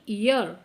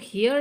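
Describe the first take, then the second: First: The word begins with a vowel sound. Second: The word begins with an h sound. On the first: The speaker calls it right. "एच silent है तो आपको ईयर इसको pronounce करना है" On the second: The speaker calls it wrong. "हेयर नहीं"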